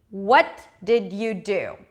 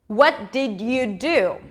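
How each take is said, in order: No difference in how they are said.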